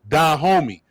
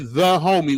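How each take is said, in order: First: The first word begins with a d sound. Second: The first word begins with a th sound. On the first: "We say da homie. ... D A West Coast African dialect for T H" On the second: "we do not say the homie"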